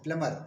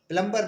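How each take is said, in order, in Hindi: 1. यह शब्द बिना 'b' की ध्वनि के बोला जाता है। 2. यह शब्द 'b' की ध्वनि के साथ बोला जाता है। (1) "उसे प्लमर बोलते हैं" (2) "प्लम्बर नहीं बोलते हैं"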